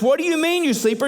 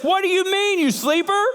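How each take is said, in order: First: Said in the usual way. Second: Captain yelling. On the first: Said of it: "here it just says". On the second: Acted. Sea captain yelling down at sleeping Jonah, high shout. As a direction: shout it down into the hold. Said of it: "he yells down to him".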